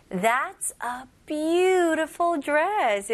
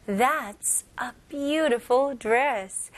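First: "beautiful" with the "beau" hit hard and drawn out long; stress on beautiful. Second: Said in the usual way. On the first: Shown as a demonstration. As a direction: lean on "beau" in "beautiful" and stretch it. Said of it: "이렇게 beau를 좀 강하게, 길게". ("beautiful"의 "beau"를 강하고 길게) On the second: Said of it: "강조하고 싶으면 원어민들은 이렇게 말해요".

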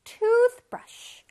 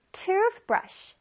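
First: Toothbrush with the first part hit hard and loud; stress on tooth. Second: Said in the usual way. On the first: Shown as a demonstration. Teacher shows the children where the stress falls in toothbrush. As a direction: punch the front of toothbrush. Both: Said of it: "앞부분에 강세가 있어요".

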